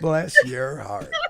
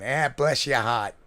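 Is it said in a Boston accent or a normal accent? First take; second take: normal; Boston. First: It is said in his normal accent. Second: It is said in a Boston accent.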